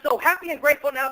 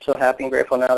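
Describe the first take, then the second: First: It is said in an excited, enthusiastic tone. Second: It is said in a flat, bored tone. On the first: The affirmation is felt with passion. The speaker calls it right. "if you get in a state of excitement, if you get enthusiastic" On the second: The affirmation feels like a chore. The speaker calls it wrong. "If you say it like that, you're not going to say it anymore"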